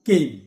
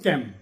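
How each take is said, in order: First: The vowel sounds like the a in day. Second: The vowel sounds like the a in cat. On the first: The speaker calls it right. "C A M E কেম" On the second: The speaker calls it wrong. "আমরা বলতে পারি ক্যাম, এটা ক্যাম নয়"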